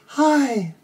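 It is said at a high pitch. "let's do a high voice in your head voice"

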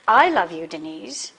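The stress falls on the word I. It is the speaker, not another man, who loves Denise. "not that other guy"

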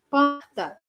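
The R is a breathy, raspy throat sound. "mais arranhado. ... que coloca mais ar no R"

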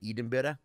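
It is said in an exaggerated Scottish accent. The speaker calls it wrong. "I went too far the other way, and I would say Edinburgh. I would try and pronounce it like a Scottish"

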